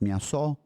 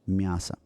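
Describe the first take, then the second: First: The final vowel is a full 'o' sound. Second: The final vowel is an 'a' sound. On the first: The speaker calls it wrong. "it's not pronounced miaso" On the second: The speaker calls it right. "It's just miasa"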